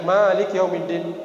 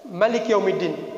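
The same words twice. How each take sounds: First: The first vowel of Malik is long. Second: The first vowel of Malik is short. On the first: God is the owner of the Day of Judgment. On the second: God is the king of the Day of Judgment. "tidak panjang"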